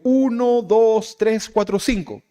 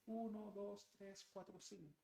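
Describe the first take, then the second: First: The voice is close and loud. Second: The voice is distant and faint. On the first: The speaker is near. "si usted está cerquita, lo escucha fuerte" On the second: The speaker has moved farther away. "si me alejo un poquito más"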